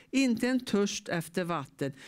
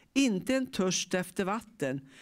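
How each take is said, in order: No difference in how they are said.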